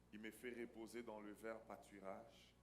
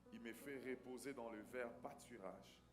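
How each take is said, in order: No difference in how they are said.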